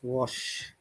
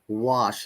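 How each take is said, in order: First: The vowel is short, in a British accent. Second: The vowel is longer, in an American accent. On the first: "Wash in British I P A" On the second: "longer sound in the American I P A"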